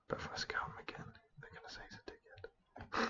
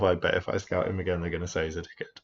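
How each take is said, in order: First: It is whispered quietly. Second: It is said in a normal voice.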